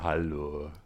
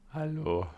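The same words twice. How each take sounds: First: The greeting is said in a deep voice. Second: The voice cracks on the greeting.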